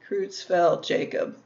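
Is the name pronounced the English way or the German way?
English. The name is said with English pronunciation. "Or in English"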